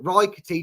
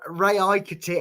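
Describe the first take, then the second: First: The 'a' is not sounded as a separate vowel. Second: The 'a' is sounded as a separate vowel. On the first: "doesn't sound right because there's an A in there for me" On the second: "when I pronounce it with the A in"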